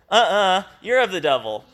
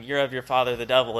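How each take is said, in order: First: Higher, louder playground comeback; mock kindergarten nuh-uh taunt; childish retort. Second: Said in the usual way. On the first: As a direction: throw it back like a sulky kid. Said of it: "Sounds like a bunch of kindergarten kids". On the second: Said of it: "their response to Jesus going".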